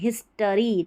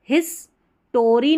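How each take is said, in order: First: The middle syllable is a reduced 'tuh' sound. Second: The middle syllable is a full 'tor' sound. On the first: The speaker calls it right. "टी ओ आर वाई टरी" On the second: The speaker calls it wrong. "हिस्टोरी नहीं बोलना, टी ओ आर वाई नहीं"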